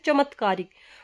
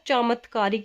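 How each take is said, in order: First: The first vowel is short. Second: The first vowel is long. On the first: The speaker calls it wrong. "हम क्या बोलते हैं" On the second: The speaker calls it right. "यानी च के साथ आ आता है"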